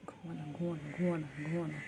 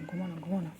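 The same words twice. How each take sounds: First: Soft whispered lull. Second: Said in the usual way. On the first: Real, not acted. Owner whispering her pet to sleep, soft whisper. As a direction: breathe it without voice, coaxing to sleep.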